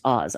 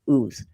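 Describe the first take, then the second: First: The vowel is a short o sound. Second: The vowel is a long oo sound. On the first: The speaker calls it wrong. "It's not pronounced Oz" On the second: The speaker calls it right. "It's pronounced like ooze"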